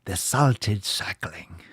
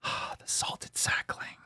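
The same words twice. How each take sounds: First: Slow hushed whisper of "the Salted Sackling". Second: Slow breathy whisper of the title. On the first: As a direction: whisper it like a legend. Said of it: "repeats title". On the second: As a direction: hush it like a secret. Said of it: "repeats title differently". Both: Shown as a demonstration.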